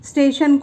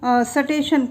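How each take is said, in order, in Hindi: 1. यह मानक हिंदी लहजे में कहा गया है। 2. यह हरियाणवी क्षेत्रीय लहजे में कहा गया है।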